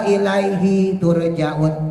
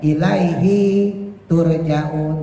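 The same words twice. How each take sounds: First: The vowel of 'hi' is held short. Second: The vowel of 'hi' is drawn out long. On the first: The speaker calls it right. "Ilaihi di Yasin itu hi-nya itu pendek semua" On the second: The speaker calls it wrong. "tapi orang bacanya"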